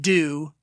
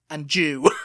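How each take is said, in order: First: The word begins with a plain D sound. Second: The word begins with a J sound.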